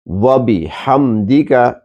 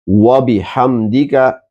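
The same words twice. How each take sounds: The two takes are said the same way.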